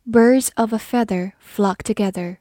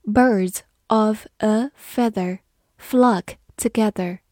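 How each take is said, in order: First: Said in the usual way. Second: Birds of a feather read slowly, word by word. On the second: Shown as a demonstration. Teacher reading slowly so students repeat after her. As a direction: read it slowly for learners to follow. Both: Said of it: "好，我们慢慢来读".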